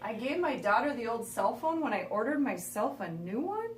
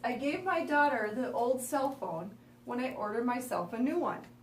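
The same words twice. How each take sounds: First: It ends with a rising question tune. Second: It ends with a falling statement tune.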